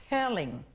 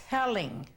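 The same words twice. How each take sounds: No difference in how they are said.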